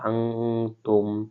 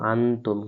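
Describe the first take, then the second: First: The n is hidden with a long nasal hum. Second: The n is said plainly, without a nasal hum. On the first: The speaker calls it right. "ইকফারা তা সেজন্য আমরা আং গুণনা করে পড়তে" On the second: The speaker calls it wrong. "এখানে আমাদের পড়ার কথা ছিল হামজা নুন জবর আন"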